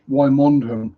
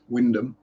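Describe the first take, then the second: First: It is said with three syllables, sounding every letter. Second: It is said with two syllables, dropping several letters. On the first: The speaker calls it wrong. "Wymondham, I hear quite a lot" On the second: The speaker calls it right. "It's Wyndham"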